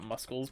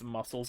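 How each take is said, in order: First: The word is pronounced in a playful altered way. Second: The word is pronounced the standard way. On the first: The speaker calls it wrong. "not muscles, but saying muscles is more fun" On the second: The speaker calls it right. "I know it's muscles"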